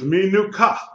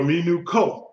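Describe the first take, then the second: First: The last vowel is an open 'a' sound. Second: The last vowel is a short 'o' sound. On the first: The speaker calls it right. "it is a quamatz and not a quamatz hatuf" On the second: The speaker calls it wrong. "short O?"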